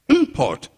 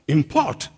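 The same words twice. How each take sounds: First: The stress is on the first syllable. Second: The stress is on the last syllable. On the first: The word is a noun. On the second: The word is a verb.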